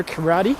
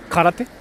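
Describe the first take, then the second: First: Karate said the American way; American "kuh-RAH-dee" for karate; anglicized karate. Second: Karate said Japanese-style, "kah-rah-teh"; short Japanese "te" ending on Karate; Japanese pronunciation of Karate. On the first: Real, not acted. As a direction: say karate English-style, ending in "dee". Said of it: "I'm sorry for saying karate". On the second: Shown as a demonstration. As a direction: say Karate with pure Japanese vowels. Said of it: "when I pronounce Japanese words".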